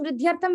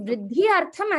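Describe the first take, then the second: First: The words run together fast into one word. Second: The two words are said separately, unjoined.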